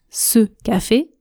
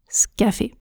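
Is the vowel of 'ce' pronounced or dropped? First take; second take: pronounced; dropped. First: The vowel in 'ce' is fully pronounced. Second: The vowel in 'ce' is dropped. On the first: "Je ne prononce pas ce café" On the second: "Quand je parle vite, je prononce scafé"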